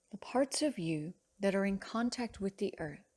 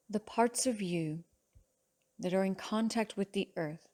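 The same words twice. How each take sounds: The two takes are said the same way.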